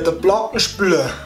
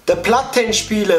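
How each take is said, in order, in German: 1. Das wird auf Bayerisch ausgesprochen. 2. Das wird auf Hochdeutsch ausgesprochen.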